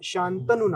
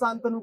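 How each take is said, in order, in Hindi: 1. यह नाम मानक लहजे में बोला गया है। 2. यह नाम बघेली लहजे में बोला गया है। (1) "हमारा शा, शांतनु नाम है" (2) "प्रांतीय जब भाषाओं का एक्सेंट आता है तब ओका शांतनु कही"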